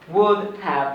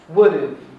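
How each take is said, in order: First: Have is said in full with its h. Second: Have is shortened to a weak schwa sound.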